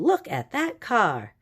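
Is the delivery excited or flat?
excited. It is read with excitement and emotion. The speaker calls it right. "Exclamation point tells us we're showing a little bit of excitement"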